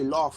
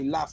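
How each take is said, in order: First: The vowel is long and drawn out. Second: The vowel is short and clipped. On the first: This is not how people here say it. "say laugh, (after 'We don't')" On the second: This is how people here say it. "We don't draw it out. It's quick fire"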